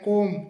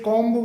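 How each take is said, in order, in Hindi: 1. यह शब्द 'm' पर खत्म होता है, इसमें कोई 'b' नहीं है। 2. अंत में 'b' की आवाज़ सुनाई देती है। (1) "सही जो प्रोनाउंसिएशन होता है वो कोम होता है" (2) "इसे कॉम्ब बोला बोल दिया जाता है"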